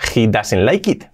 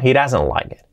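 First: It is said with Spanish-style pronunciation. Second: It is said with natural English pronunciation. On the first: The speaker calls it wrong. "Mal pronunciado" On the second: The speaker calls it right. "Bien pronunciado"

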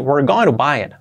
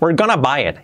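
First: 'Going to' keeps both words, with a soft tapped t. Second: 'Going to' is reduced to 'gonna', said faster. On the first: "si hacemos la T de to como una R suave" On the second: "cuando se hace un poquito más rápido incluso, sale el famoso gonna"

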